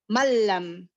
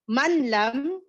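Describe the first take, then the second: First: The n merges into a doubled l sound. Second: The n is clearly pronounced before the l. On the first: The speaker calls it right. "magiging mal, mallam" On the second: The speaker calls it wrong. "instead of saying manlam"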